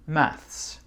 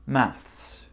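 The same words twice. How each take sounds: First: British accent, ending with an s sound. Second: British accent, ending with an s sound.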